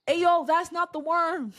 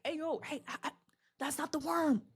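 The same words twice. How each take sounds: First: Loud, high, drawn-out call; urgent warning. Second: Cowering, hesitant warning, higher and softer; SpongeBob. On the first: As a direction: call it out urgently to someone not listening. SpongeBob repeats warning more urgently. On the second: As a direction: stammer it timidly from a hiding place. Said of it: "SpongeBob is behind the rock cowering". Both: Retold or imitated.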